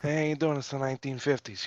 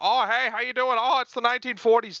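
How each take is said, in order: First: It is said in a modern, naturalistic acting voice. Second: It is said in an old transatlantic acting voice.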